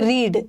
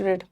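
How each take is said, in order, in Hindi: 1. स्वर लंबा है, 'reed' जैसा। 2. स्वर छोटा है, 'red' जैसा। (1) "बट इसका उच्चारण अलग होता है" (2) "यहाँ रीड का पास्ट टेंस रेड होगा"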